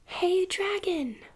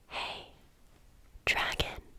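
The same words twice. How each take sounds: First: It is shouted very loudly. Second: It is whispered very softly.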